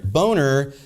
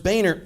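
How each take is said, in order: First: Boehner said as BOH-ner, like "boner"; punning mispronunciation. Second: Boehner said as BAY-ner; surname pronunciation. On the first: Anchor swapping in the pun, Boehner said "boner". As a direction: say Boehner with a long O in the first syllable. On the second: Anchor quoting wife's pun, Boehner said "BAY-ner". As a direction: say Boehner with an "ay" in the first syllable. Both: Shown as a demonstration.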